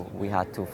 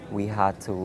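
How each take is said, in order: Both takes have the same delivery.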